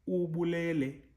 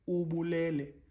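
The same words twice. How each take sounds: No difference in how they are said.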